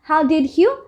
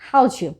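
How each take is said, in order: First: Each word is said separately, with 'did' in full. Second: The words run together, 'did' reduced to 'd'.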